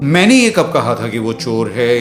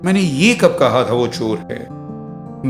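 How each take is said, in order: First: The stress falls on the word मैंने. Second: The stress falls on the word ये. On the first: Someone else said it, not me. "किसी और ने कहा था और आपने मुझ पर इल्जाम लगा दिया" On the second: I said something else, not this. "मैंने कुछ और कहा था भाई, आपने क्या सुन लिया"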